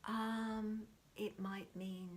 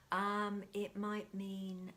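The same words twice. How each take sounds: The two takes are said the same way.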